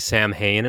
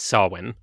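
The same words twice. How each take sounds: First: The word gets an anglicized, English-style pronunciation. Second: The word gets its traditional Gaelic pronunciation. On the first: This is the popular modern way of saying it. The speaker calls it wrong. "A lot of people say Samhain" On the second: This is the traditional way of saying it. The speaker calls it right. "traditionally, it's Samhain"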